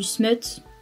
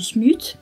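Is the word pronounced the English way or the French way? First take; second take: English; French. First: The vowel is said as in English. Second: The vowel is said as a French u.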